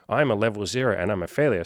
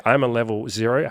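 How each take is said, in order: First: Flat, falling self-pity on "failure"; mock the defeatist line; defeated. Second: Rising, upbeat "I'm a level zero"; hopeful. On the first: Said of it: "Instead of saying". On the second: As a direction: say it like a fresh start. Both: Shown as a demonstration.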